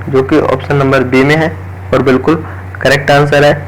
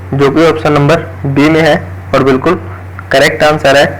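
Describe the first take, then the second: The two takes are said the same way.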